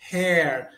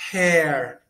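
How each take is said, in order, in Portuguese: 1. A vogal é um 'e' aberto. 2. A vogal é um 'e' aberto.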